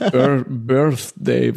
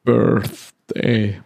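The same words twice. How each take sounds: First: Birthday slowly broken up, "Bir-" then again; stockend ausgesprochen. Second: "Birthday" said carefully, English th, falling tune. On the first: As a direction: sound out "Birthday" with effort. ("Birthday" mühsam stockend ausgesprochen) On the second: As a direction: say "Birthday" slowly and deliberately. ("Birthday" sorgfältig englisch ausgesprochen) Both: Shown as a demonstration. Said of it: "was für ein schwieriges Wort".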